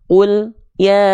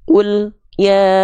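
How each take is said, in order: First: The L sound is cut off before ya. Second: The same.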